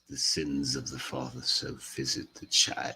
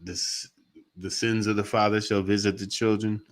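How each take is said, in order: First: It is said in a dark English villain accent. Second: It is said in the speaker's ordinary accent. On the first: The speaker calls it right. "You got to put an English accent on it" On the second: The speaker calls it wrong. "You can't just say it like that"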